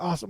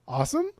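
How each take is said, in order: First: The voice falls at the end. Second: The voice rises at the end.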